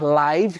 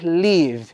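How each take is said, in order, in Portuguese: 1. A vogal é um ditongo, como em 'five'. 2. A vogal é curta, como em 'give'. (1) "quando significar ao vivo" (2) "do verbo to live, que é o verbo viver e morar"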